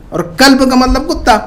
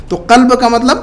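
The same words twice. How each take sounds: First: قلب said as kalb with a plain front k; قلب with an ordinary front k; plain k sound. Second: قلب with a deep throaty q from the back of the throat; قلب with a deep uvular q; deep qaf. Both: Shown as a demonstration. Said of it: "قلب اور قلب میں فرق".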